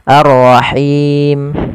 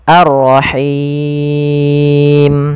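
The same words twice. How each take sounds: First: The final long vowel is held briefly. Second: The final long vowel is held very long. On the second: "enam harokat"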